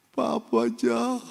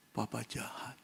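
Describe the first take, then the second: First: Put-on slow, high child's accusation; a wounded little boy blaming papa; hurt child. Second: Much softer, lower, repeated to himself; stricken echo. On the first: Injected boy tells his father he is mean, slow and high. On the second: Retold or imitated. Heartbroken father repeats his son's accusation, very soft. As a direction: let it fall out of you, crushed.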